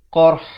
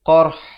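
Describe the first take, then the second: First: The word ends with r then h. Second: The word ends with r then h.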